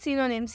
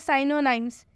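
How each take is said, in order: First: The vowels are short 'i', as in sin. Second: The vowels sound like 'eye', as in sigh. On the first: The speaker calls it right. "इसका उच्चारण होगा सिनोनिम्स, यही सही उच्चारण है" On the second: The speaker calls it wrong. "वो ऐसे बोल देते हैं साइनोनाइम्स, जो कि गलत उच्चारण हो जाता है"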